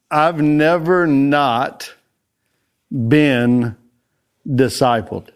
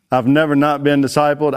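First: "I've never not been discipled" drawn out slowly, "never" stressed and every word separated by a pause. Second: "I've never not been discipled" in one flowing phrase, a light stress on "never". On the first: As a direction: linger on each word, lean on "never". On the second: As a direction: say it straight through, tapping "never". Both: Shown as a demonstration.

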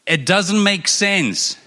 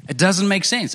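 First: "It doesn't make sense" drawn out slowly, leaning on "doesn't"; slow emphasis. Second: Said in the usual way. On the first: Shown as a demonstration. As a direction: land each word slowly for the crowd. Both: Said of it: "I want to emphasize that part".

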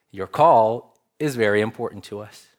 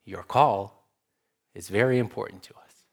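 First: Said in the usual way. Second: Imitating a recorded phone line voice, smooth and fast; automated phone voice. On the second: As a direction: put on the polite canned voice of a hotline recording. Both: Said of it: "the voice on the other line assures you".

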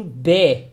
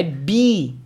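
First: "B" as a short "beh"; correct vowel BI. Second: "B" as a long tense "bee"; wrong vowel BI. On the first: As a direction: say "B" slowly with a lax eh-like vowel. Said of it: "e sim B". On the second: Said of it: "Não é B". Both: Shown as a demonstration.

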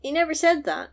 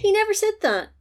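First: "said" pushed as the key word; stress on SAID. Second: "He" hit high and loud, the rest falling; stress on HE. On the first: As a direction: put the weight on "said" instead of "He". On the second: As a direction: lean hard on "He" to correct. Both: Shown as a demonstration.

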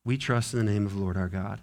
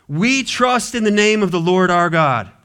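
First: Quiet fast restatement. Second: Proclaiming creed. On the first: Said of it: "repeated creed quietly". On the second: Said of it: "repeated creed". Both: Real, not acted.

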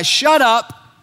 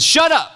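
First: A sharp command to silence the demon; stern rebuke. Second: High, blunt "Shut up"; sharp rebuke. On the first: Acted. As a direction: bark "Shut up" at the demon. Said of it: "Jesus told this guy". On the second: Shown as a demonstration. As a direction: snap "Shut up" as a stern rebuke. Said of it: "What he said was, "Shut up".

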